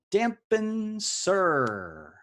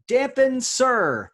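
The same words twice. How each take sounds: First: Each syllable stretched out very slowly; very slow repeat. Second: High, loud and slow, stretching each word; drawn-out announcement. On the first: Quiz host repeating the clue to stalling players, very slowly. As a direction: savour the words, dragging them. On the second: Quiz host unveiling the anagram clue to players, grand and drawn out. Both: Acted.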